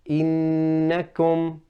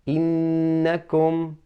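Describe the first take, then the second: No difference in how they are said.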